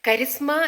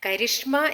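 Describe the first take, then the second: First: The middle consonant is a plain s sound. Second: The middle consonant is an sh sound. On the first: The speaker calls it right. "കരിസ്മ എന്ന് ശരിയായിട്ട് വിളിക്കുന്നവർ" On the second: The speaker calls it wrong. "കരിഷ്മ എന്ന് ഉച്ചരിക്കാനാണ് ആ, മിക്കവർക്കും താല്പര്യം"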